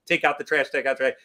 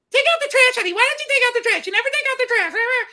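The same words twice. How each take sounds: First: Said in the usual way. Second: High, loud nagging wife impression; mock a nagging wife, way up high; husband mocking his wife's nagging, high and loud. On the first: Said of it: "when I'm making fun of Joyce". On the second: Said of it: "that's my nagging voice".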